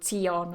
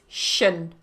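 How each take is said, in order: First: The ending is said with a 'tee-on' sound. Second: The ending is said with a 'shun' sound. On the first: The speaker calls it wrong. "they get influenced by the spelling and they want to say tion" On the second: The speaker calls it right. "But it's shun"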